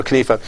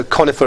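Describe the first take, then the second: First: Conifa as kuh-NEE-fa; alternative pronunciation. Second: Conifa as KON-ih-fa; alternative pronunciation. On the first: Guest comparing his way and host's, conifa said kuh-NEE-fa. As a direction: stress the middle of conifa with a long ee. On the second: Guest comparing his way and host's, conifa said KON-ih-fa. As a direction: stress the first syllable of conifa, short middle vowel. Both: Shown as a demonstration. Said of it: "say it your way than my way".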